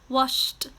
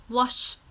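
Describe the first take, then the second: Both takes have the same delivery.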